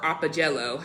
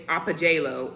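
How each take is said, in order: First: Apogelo with a short E in "gelo", like JELL-o; short-E pronunciation. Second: Apogelo with a long A in "gelo", like JAY-lo; long-A pronunciation. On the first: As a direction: say apogelo as ah-puh-JEH-loh. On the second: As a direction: say apogelo as ah-puh-JAY-loh. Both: Shown as a demonstration. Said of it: "however you pronounce it".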